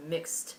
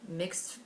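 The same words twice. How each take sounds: The two takes are said the same way.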